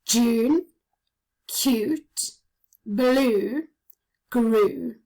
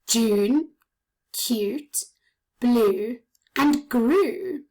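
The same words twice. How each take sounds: First: Each word said alone and stretched, with a pause after it; isolated listening words, each oo drawn out; words said one by one. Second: The same words joined in one list, lifting on "and"; said together as a list. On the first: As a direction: let each word ring out alone, leaning on the long oo. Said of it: "tell me what you can hear". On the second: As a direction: run June, cute, blue and grew as one list. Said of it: "now let's say them together". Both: Shown as a demonstration.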